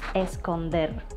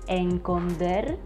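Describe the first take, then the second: First: The first consonant sound is an s. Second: The first consonant sound is an n. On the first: The speaker calls it right. "instead of esconder" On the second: The speaker calls it wrong. "saying or even reading enconder"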